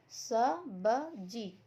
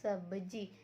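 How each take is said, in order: First: स, ब, जी drawn out very slowly, one at a time; letters separately. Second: सब्जी blended into one word; sounds joined. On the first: Teacher showing pupils separate letters, slow sounding-out of स ब जी. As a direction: sound out स ब जी with a gap after each. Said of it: "यहाँ पर अलग अलग". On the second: Teacher showing pupils how letters combine, सब्जी as one word. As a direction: say सब्जी joined up, without long gaps. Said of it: "हमें इसे मिलाना है". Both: Shown as a demonstration.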